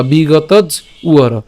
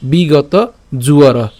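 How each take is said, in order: First: "বিগতজ উয়র" slowly, j closing the first word; split pronunciation. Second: "বিগত জুয়র" slowly, j starting the second word; joined pronunciation. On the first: Teacher offers alternative "বিগতজ উয়র", slow split after j. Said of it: "বা". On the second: Teacher offers "বিগত জুয়র" to learners, slow and linked. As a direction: link j into "জুয়র". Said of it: "উচ্চারণটা কেমন হচ্ছে". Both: Shown as a demonstration.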